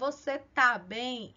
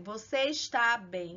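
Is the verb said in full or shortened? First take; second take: shortened; full. First: The verb is shortened to one syllable. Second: The verb is said in its full form. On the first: This is how people really speak. "A gente fala" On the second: This is the formal grammatical form. "A gente não fala assim"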